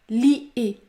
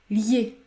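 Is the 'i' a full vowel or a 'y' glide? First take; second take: full vowel; y glide. First: The 'i' is a full separate vowel. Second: The 'i' is a short 'y' glide. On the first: The speaker calls it wrong. "Il ne faut pas dire lier" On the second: The speaker calls it right. "il faut prononcer la semi-voyelle Y"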